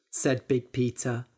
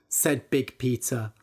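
No difference in how they are said.

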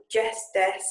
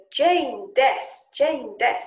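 First: "Jess, des." with a clipped des; "Jess" said plainly, "des" short and dropped; corrected name. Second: Jess heard as "Jane, des"; "Jane" with a long nasal ay; mispronounced name. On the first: Correcting the misheard name to the Japanese teacher. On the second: Learner mishears her own name in a Japanese intro. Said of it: "Well, "Jess, des". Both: Shown as a demonstration.

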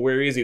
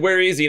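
First: Said in the usual way. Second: Sharp, higher-pitched call of where is he; demanding question. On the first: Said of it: "they're kinda asking people". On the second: Retold or imitated. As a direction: ask it like leaders searching the feast crowd. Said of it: "they said".

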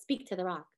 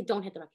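First: Quiet. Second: Said in the usual way. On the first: Shown as a demonstration. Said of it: "He just says". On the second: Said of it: "he doesn't say".

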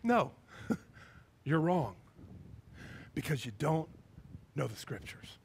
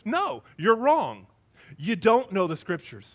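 First: Loving correction. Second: Drawn-out, emphatic no; firm correction. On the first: Jesus answering the trick question with love, quiet loving correction. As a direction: correct them gently, letting each phrase sink. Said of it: "I can just hear he's got love". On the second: Jesus answering the Sadducees' question, firm emphatic correction. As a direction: correct them firmly at full voice. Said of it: "And he says". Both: Acted.

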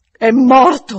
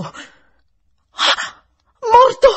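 First: Loud, higher, emphatic announcement; grave revelation. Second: Gasp, then high loud cry; almost shriek it in shock; near scream. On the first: Housekeeper breaking the death to governess, forceful and loud. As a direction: deliver the news with great force. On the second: Governess hearing of the death, almost screaming. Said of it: "quasi gridai". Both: A narrator's reading.

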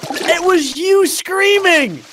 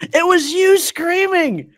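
First: High, slow emphatic cry; high drawn-out accusing cry; excited outburst. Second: High, slow emphatic cry again on YOU; high drawn-out insisting cry; excited repeat. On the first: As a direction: stress YOU high and long. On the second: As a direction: lean hard on YOU. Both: Real, not acted. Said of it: "repeats excitedly".

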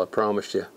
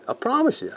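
First: Said in the usual way. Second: Much higher, playful "I promise you"; squeaky promise. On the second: Shown as a demonstration. Fly-fishing vlogger repeating his promise to viewers, squeaky high.

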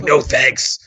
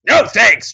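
First: Said in the usual way. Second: NO thanks pitched very high and loud; rising no thanks. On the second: Retold or imitated. Dafoe rejecting the wrong baby, frantic high refusal. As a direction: top the run with a frantic NO thanks. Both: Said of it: "He's like".

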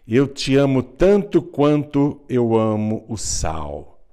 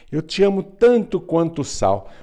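First: A slow, louder declaration leaning on "tanto"; the youngest daughter tells the king she loves him as much as salt, earnest. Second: Higher and louder, with "tanto" pushed hard; the daughter insists to the puzzled king, pushing the words higher and louder; insisting daughter. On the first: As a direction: say it slowly and plainly, meaning every word. Youngest daughter declares her love. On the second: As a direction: insist on it a second time, stressing "tanto". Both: Acted.

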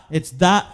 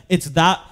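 The two takes are said the same way.

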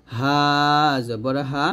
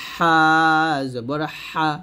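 First: "হা" thin and easy, from the throat's start; light H. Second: "হা" tight, from mid-throat; pressed H. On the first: Teacher has learners repeat, light "হা". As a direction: breathe "হা" without squeezing. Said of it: "আবার বলেন". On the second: Teacher has learners repeat, pressed "হা". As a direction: squeeze friction into "হা". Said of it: "আর হচ্ছে". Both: Shown as a demonstration.

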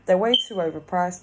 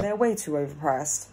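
First: Louder, stressing way too overpriced; emphatic repeat. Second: Said in the usual way. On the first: Real, not acted. To the spirit, insisting They're way too overpriced, louder. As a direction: hammer home the price complaint.

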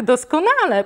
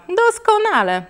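First: First doskonale, mildly raised, falling; mother's sarcastic first doskonale. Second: Doskonale repeated much higher and falling hard; mother's sarcastic doskonale, repeated much higher. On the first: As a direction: say doskonale with cold irony, first time. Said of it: "A tak". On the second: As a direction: push the second doskonale up high, biting. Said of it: "powiedziała mama". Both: Acted.

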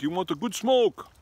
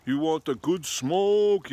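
First: High, louder put-on hustler voice; pot-selling airport guy. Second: Slow, high, louder put-on hustler voice, drawn out; pot-selling airport guy. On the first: Airport worker repeating his weed offer, mock hustler voice. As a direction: repeat the offer with a knowing push. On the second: Airport worker offering weed, slow mock hustler voice. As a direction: lure him in like a sly street seller. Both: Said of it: "He's like".

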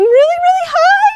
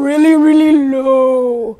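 First: "really, really high" squeaked up very high. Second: "really, really low" dropped low and drawn out slowly. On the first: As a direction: jump way up high on "high". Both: Shown as a demonstration. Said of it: "changing the pitch of sound".

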